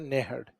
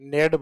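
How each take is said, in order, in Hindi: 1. मध्य की h ध्वनि उच्चारित की जाती है। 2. मध्य की h ध्वनि छोड़ दी जाती है। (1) "बाकी सही शब्द है नेहड।" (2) "है को साइलेंट करते हुए डायरेक्ट क्या बोल देते हैं? नेड बोलते हैं।"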